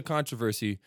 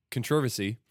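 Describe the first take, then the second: First: CONTROVERSY stressed on the first syllable, CON-truh-ver-see; controversy with the main stress on CON; American pronunciation. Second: Controversy stressed on the second syllable, con-TROV-er-sy; controversy with the main stress on TROV; British pronunciation. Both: Shown as a demonstration. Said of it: "you would say in England".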